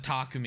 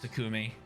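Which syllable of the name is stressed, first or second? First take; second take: first; second. First: The stress is on the first syllable. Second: The stress is on the second syllable. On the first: The speaker calls it wrong. "I default in the Takumi" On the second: The speaker calls it right. "even though I know it's Takumi"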